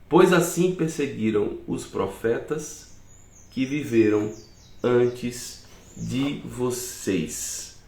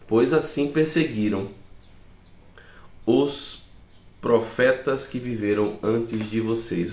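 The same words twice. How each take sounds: First: It is read at a slower pace. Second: It is read at a faster pace.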